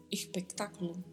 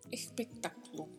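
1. O S soa como um R suave. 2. O S soa como um R suave.

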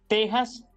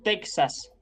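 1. La x suena como una h áspera y gutural. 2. La x suena como k más s. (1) "Así que diremos" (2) "y no"

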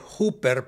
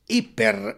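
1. La primera vocal suena como 'oo'. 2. La primera vocal suena como 'ee'. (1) "Ayer dije hooper" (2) "pero es hiper en su mejor fonética"

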